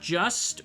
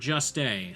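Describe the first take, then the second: First: The name is said like the word 'just'. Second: The name is said with an extra final vowel. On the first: "It's not just" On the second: "or just a"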